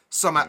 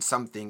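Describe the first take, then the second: First: It is said in traditional Yorkshire dialect. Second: It is said in standard English.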